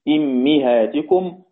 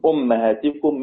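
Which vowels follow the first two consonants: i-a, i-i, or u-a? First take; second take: i-i; u-a. First: Both the first and second vowels are i. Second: The first vowel is u, the second a. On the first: "حمزة بيقرأ بكسر الهمزة وكسر الميم" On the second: "والباقون بضم الهمزة وفتح الميم"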